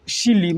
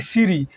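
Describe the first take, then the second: First: It is lisped, with an l replacing the r. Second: The middle consonant is a clear r sound. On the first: "माने तोतला जाएंगे थोड़ा" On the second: "भगवान के नाम में कहता है कि सीरी"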